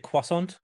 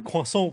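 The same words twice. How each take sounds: First: The word is pronounced with an English accent. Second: The word is pronounced with a French accent. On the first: "we say croissant" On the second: "we don't say croissant"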